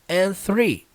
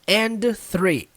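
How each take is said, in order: First: The D at the end of 'and' is dropped. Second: The D at the end of 'and' is pronounced. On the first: The speaker calls it right. "ela não é pronunciada com a letra D" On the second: The speaker calls it wrong. "você não vai ver a pessoa falando assim"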